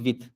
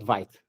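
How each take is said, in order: First: It is said with a French pronunciation. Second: It is said with an English-style pronunciation. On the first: The speaker calls it right. "it's pronounced Vit" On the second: The speaker calls it wrong. "and not Vite"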